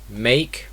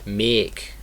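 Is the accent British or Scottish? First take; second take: British; Scottish. First: It is said in a British accent. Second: It is said in a Scottish accent. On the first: "in British English" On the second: "In Scottish English"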